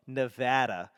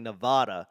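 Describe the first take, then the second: First: "Nevada" with the short a of "cat", neh-VAD-uh; local Nevada pronunciation. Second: "Nevada" with a broad ah in the middle, neh-VAH-duh; Boston-style Nevada. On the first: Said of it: "not the appropriate spelling or pronunciation". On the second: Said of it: "I keep on saying Nevada". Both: Shown as a demonstration.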